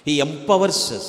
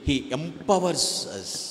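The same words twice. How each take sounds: First: Empowers punched as the key word; emphatic restatement. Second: Each word drawn out slowly; slow and deliberate. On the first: Preacher repeating the point to the congregation, emphatic and firm. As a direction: drive the word home to the congregation. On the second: Preacher to the congregation, slowly spelling out each word. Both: Shown as a demonstration.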